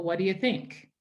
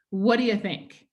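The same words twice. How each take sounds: First: Said in the usual way. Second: "What do you think?" blended into one word; natural connected speech demo; run together. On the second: Shown as a demonstration. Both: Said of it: "this is how we usually pronounce it".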